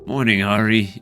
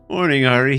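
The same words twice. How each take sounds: First: It is said in the speaker's ordinary voice. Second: It is said in a put-on character voice.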